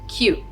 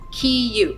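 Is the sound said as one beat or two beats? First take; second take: one beat; two beats. First: Two sounds are blended into a single beat. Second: Two sounds are said as two separate beats. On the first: "this is read as one beat" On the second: "this is two beats"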